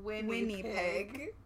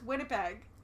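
First: The last syllable sounds like 'pig'. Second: The last syllable sounds like 'peg'. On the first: The speaker calls it wrong. "Which is not how you say that at all" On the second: The speaker calls it right. "It's Winnipeg"

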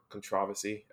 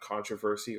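First: It is said the way British speakers say it. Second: It is said the speaker's usual, American way.

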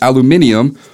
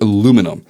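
First: It is said the Australian way. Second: It is said the American way.

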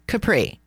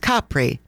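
First: The stress is on the second syllable. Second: The stress is on the first syllable. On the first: The speaker calls it wrong. "not Capri" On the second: The speaker calls it right. "just so all of you get the pronunciation correct, it's Capri"

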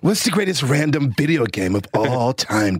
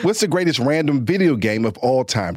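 First: It is said in a put-on surfer-dude voice. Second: It is said in the speaker's ordinary voice. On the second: "say it again with your normal voice"

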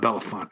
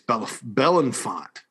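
First: The name is said as Belafonte. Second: The name is said as Belenfont. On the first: The speaker calls it wrong. "It's not [name]" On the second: The speaker calls it right. "It's [name]"

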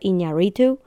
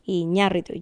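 First: The stress falls on a syllable other than the second. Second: The stress falls on the second syllable. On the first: The speaker calls it wrong. "Everybody pronounces his last name wrong" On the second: The speaker calls it right. "with the stress on the A"

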